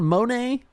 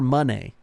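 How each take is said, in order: First: It sounds like 'mo-nay', ending in 'ay'. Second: It sounds like 'mun-a', ending in 'uh'. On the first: "like M O hyphen N A Y like Monet" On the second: "like Mun M O N hyphen A like Canada"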